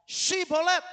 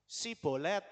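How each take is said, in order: First: "Sibolet" jadi "Syibolet", lantang dan tinggi; bunyi SH di awal. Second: "Sibolet" dengan S tipis, suara biasa; bunyi S, bukan SH. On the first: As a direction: perintah lantang dengan SH tajam pada "Sibolet". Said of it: "Coba kamu ngomong". ("Sibolet" diteriakkan dengan awalan SY) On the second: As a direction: tiru orang Efraim, "Sibolet" tanpa SH. ("Sibolet" berawalan S polos) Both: Acted.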